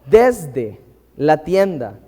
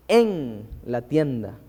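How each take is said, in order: First: "desde" slow and punched, then a pause; stress on DESDE. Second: "en" held long, then "la tienda" lower; stress on EN. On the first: Preacher contrasting two verses for the congregation, "desde" stressed. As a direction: set "desde" apart, drawn out and firm. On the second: Preacher contrasting Numbers with Leviticus, "en" drawn out and stressed. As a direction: stretch out "en" and leave a gap after it. Contrasts two prepositions of verses. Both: Shown as a demonstration.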